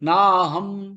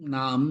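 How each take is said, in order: First: An h sound from the throat is heard mid-word. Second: No h sound is heard mid-word. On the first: The speaker calls it right. "ஹம் ஹ தொண்டையில இருந்து" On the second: The speaker calls it wrong. "நாம் இல்ல"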